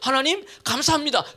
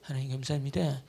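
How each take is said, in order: First: It is said loudly. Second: It is said quietly.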